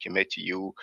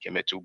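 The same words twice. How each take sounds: First: Kemet said with a -iu ending; Kemetiu variant. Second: Kemet said with a plain -u ending; Kemetu variant. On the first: Speaker shows viewers one way to say Kemet, Kemetiu ending in -iu. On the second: Speaker shows viewers another way to say Kemet, Kemetu ending in -u. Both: Shown as a demonstration. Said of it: "some people may pronounce it".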